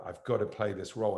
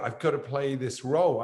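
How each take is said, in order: First: Said in the usual way. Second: Retold insistence, pushing back a little harder; insistent plea. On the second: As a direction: insist on it, slightly raised voice. Insisting after the team objects.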